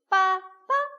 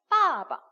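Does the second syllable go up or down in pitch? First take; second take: up; down. First: The second syllable is raised up in pitch. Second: The second syllable is let down low in pitch. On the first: The speaker calls it wrong. "빠빠 이러면 이상하니까" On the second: The speaker calls it right. "내려간 데서 그냥 내려놓으시면 돼요"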